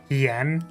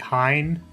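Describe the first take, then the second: First: It does not sound like Heinz without s. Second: It sounds like Heinz without the final s. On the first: "How do you pronounce it then?" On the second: "Not like the ketchup, that would be Hein"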